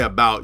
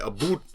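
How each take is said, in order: First: The word is said without a Canadian accent. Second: The word is said with a Canadian accent. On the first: The speaker calls it wrong. "You don't say about" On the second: The speaker calls it right. "If you're from Canada, you say about"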